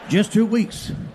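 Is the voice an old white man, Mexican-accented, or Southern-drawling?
Southern-drawling. It is a gruff Southern redneck voice.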